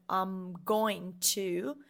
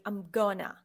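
First: GOING TO in two separate, drawn-out words; slow, unmerged "I'm going to", each word whole; full careful form. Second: GOING TO run together as "gonna"; short, casual merged "I'm gonna"; merged words. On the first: Teacher showing learners the long form, fully articulated. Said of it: "So instead of saying". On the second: Teacher showing learners how English merges words, contracted. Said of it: "they merge words". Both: Shown as a demonstration.

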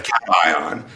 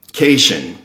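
First: "cation" said CAT-eye-on; correct pronunciation. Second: "cation" said KAY-shun; mispronounced as written. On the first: Guest giving the proper term, "cation" as CAT-eye-on. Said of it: "instead of cation". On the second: Guest admitting his video slip, "cation" as KAY-shun. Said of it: "I, I said". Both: Shown as a demonstration.

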